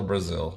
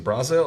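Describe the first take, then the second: First: Said in the usual way. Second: "Brazil" with an open BRAH first syllable; full-vowel Brazil. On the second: Shown as a demonstration. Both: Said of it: "Is it Brazil or Brazil?".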